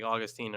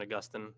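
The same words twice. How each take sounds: First: Put-on Augustine said AW-gus-teen; Augustine ending in a long teen; first pronunciation. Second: Augustine said uh-GUS-tin; second pronunciation. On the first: Host showing one of both ways, Augustine as AW-gus-teen. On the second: Host showing the other way, Augustine as uh-GUS-tin. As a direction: stress GUS in Augustine, short tin ending. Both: Shown as a demonstration. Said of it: "I've heard it both ways".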